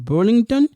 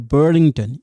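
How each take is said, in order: First: The name is pronounced the French way. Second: The name is pronounced the English way.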